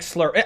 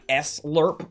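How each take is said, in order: First: The S blends into one syllable. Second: The S is said as a separate letter. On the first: "it sounds like slurp" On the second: "Technically, you pronounce it like S-lurp"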